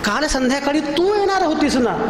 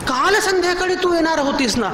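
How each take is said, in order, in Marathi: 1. जोर 'तू' या शब्दावर येतो. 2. जोर 'काल' या शब्दावर येतो. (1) "ती कशी काय आली?" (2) "आज कशी आलीस?"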